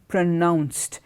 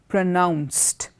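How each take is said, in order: The two takes are said the same way.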